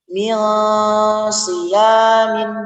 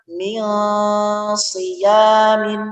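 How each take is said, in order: No difference in how they are said.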